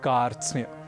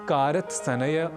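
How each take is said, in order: First: No extra vowel splits the consonant cluster. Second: Two extra vowels split the consonant cluster. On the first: The speaker calls it right. "हमें कहना है" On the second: The speaker calls it wrong. "न कहकर"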